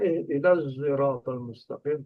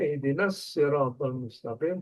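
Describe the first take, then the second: First: The s in sirat blends toward a z. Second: The s in sirat is a light plain s. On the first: "pakai ismam" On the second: "pakai sin"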